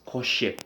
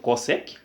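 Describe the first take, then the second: First: "cosec" with sh in the middle, co-shek; pronounced "coshec". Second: Said in the usual way. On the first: Shown as a demonstration. Teacher contrasting with normal trig, "cosec" said as co-shek. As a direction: turn the s of "cosec" into sh. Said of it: "but this one we pronounce as". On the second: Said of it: "the issue of cosec in trig".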